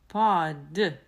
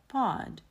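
First: The final d is strongly, fully voiced. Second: The final d is weakly voiced. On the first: The speaker calls it wrong. "Я не говорю pod" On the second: The speaker calls it right. "просто pod"

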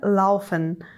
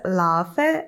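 First: The word ends with a final n sound. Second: The word ends without a final n sound. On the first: This is the standard German form. "вместо «laufen»" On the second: This is the Hessian dialect form. "Сокращаются окончания. Например, говорится «laufe»"

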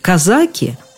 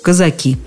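First: The stress is on the middle syllable. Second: The stress is on the last syllable. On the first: This is the title of Tolstoy's novella. "у Толстого «казаки»" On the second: This is the general word for Cossacks. "а во всех остальных случаях «казаки»; лучше выбирать ударение на окончании"

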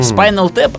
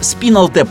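First: The first vowel sounds like 'eye'. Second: The first vowel sounds like 'ee'. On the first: This is how the speaker prefers to say it. "Я называю «Спайнал»" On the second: This is how some other people say it. "почему-то некоторые говорят"

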